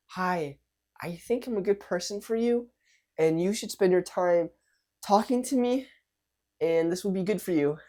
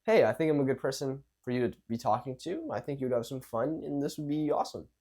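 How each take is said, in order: First: High-pitched, hesitant self-pitch in short pieces; unsure, timid vibe. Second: Easy self-assured pitch at everyday height; calm, relaxed, confident. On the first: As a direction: plead timidly, high, pausing between phrases. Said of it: "Two different vibes are coming out". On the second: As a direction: offer it casually, sure of yourself. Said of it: "calm, relaxed, and confident". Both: Shown as a demonstration.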